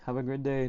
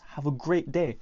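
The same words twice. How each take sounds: First: It is said quietly and shyly. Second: It is said loudly and energetically.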